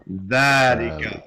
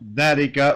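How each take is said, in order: First: The first vowel is long. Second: The first vowel is short. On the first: The speaker calls it right. "we say thatika" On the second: The speaker calls it wrong. "we don't say thatika"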